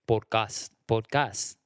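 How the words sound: It is said with a Spanish accent. "because in Spanish it would be podcast"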